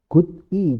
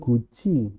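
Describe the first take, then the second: First: It is said with a d sound before i. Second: It is said with a j sound before i.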